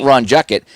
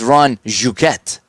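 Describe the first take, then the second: First: The name is pronounced the plain English way. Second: The name is pronounced the French way. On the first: The speaker calls it wrong. "it's not Ron Juckett" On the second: The speaker calls it right. "It's Ron Jouquet. ... from France"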